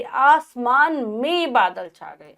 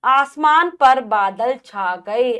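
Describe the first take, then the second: First: Slow reading with में stressed; corrected sentence. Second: Slow, louder reading of पर; wrong sentence read. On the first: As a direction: read the fixed sentence slowly. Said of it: "में आएगा". (शुद्ध वाक्य, में पर ज़ोर) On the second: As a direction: read the faulty version slowly. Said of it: "पढ़ नहीं आएगा". (अशुद्ध वाक्य, धीरे) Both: Shown as a demonstration.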